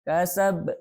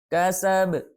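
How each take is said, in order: The two takes are said the same way.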